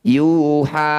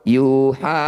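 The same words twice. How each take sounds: First: Both syllables are held equally long. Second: One syllable is held longer than the other. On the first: The speaker calls it right. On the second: The speaker calls it wrong. "tidak boleh panjang sebelah"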